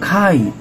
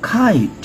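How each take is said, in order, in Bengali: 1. প্রথম k ধ্বনিতে বাতাসের ফুঁ আছে। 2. প্রথম k ধ্বনিতে বাতাসের ফুঁ আছে।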